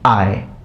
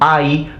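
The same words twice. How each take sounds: First: The vowel glides toward a lower eh sound. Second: The vowel glides toward a high ee sound. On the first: This is the later form of the sound. "E sound was lowered to a e during Republican times" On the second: This is the older form of the sound. "in Old Latin, this was pronounced I"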